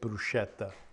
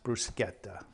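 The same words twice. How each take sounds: First: The middle consonant is a soft sh sound. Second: The middle consonant is a hard k sound. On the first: It is said the way an English word would be. The speaker calls it wrong. "a lot of people pronounce it bruschetta. Uh, incorrect" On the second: It is said the way an Italian word is. The speaker calls it right. "it's pronounced bruschetta, a hard k sound"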